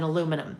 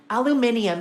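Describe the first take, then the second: First: The word is said the American way. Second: The word is said the Australian way.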